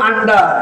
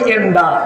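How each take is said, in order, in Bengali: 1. শব্দটি একটি খোলা 'a' স্বরধ্বনি দিয়ে শুরু। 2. শব্দটি একটি 'e' স্বরধ্বনি দিয়ে শুরু। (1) "আপনারা বলেন আন্ডা" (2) "আমরা সিলেট হই এন্ডা"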